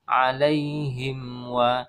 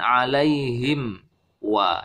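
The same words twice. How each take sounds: First: The two words run together without a pause. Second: There is a pause between the two words. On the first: The speaker calls it right. "Yang benar adalah dari mim sukun nyambung ke waw" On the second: The speaker calls it wrong. "Dari mim sukun ke wa ini ada jeda ya. Ini yang tidak tepat"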